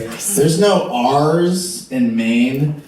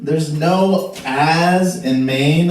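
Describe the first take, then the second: First: It is said in a neutral accent with r sounds. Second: It is said in a Maine accent without r sounds.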